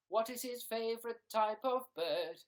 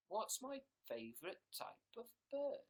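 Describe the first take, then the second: First: Loud, raised announcer tease; mock announcer. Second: Said in the usual way. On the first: Announcer teasing a viewer's question, loud and high. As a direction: pose it to an audience, projected.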